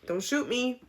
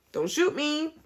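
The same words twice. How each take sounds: First: Said in the usual way. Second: High, jokey plea for mercy; mock pleading squeak. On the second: Vlogger jokingly begging viewers not to shoot her, high mock plea.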